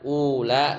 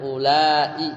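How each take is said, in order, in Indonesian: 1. Kata ini diucapkan dalam bentuk pendek. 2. Kata ini diucapkan dalam bentuk panjang. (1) "dibaca qasar indat tamimin" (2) "bil maddi dibaca panjang"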